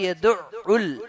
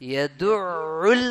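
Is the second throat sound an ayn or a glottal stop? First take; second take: glottal stop; ayn. First: The second sound is a plain glottal stop. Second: The second sound is a squeezed throat ayn. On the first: The speaker calls it wrong. "നേരെ മറിച്ച് യദു ഉൽ എന്ന് പറഞ്ഞാല് ഒരു ഹംസയാണ്" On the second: The speaker calls it right. "യദു ഉൽ എന്നാണ് പറയേണ്ടത്, അയിനുമ്മ തന്നെ നിക്കണം നാവ്"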